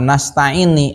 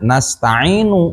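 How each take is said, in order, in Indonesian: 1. Kata itu diakhiri dengan vokal i. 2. Kata itu diakhiri dengan vokal u. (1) "dibaca nasta'ini" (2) "kuduna nasta'inu"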